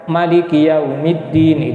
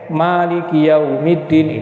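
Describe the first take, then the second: First: The first vowel of maliki is short. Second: The first vowel of maliki is long. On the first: "itu pendek" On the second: "itu panjang"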